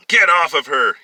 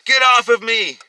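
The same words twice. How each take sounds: First: Loud, raised-pitch yell; forceful shouted command. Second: Very high, loud scream; woman's high, loud cry of protest. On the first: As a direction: yell at an attacker while rushing in. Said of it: "he yelled". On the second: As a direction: scream to fight off an attacker. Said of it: "he heard her screaming". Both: A narrator's reading.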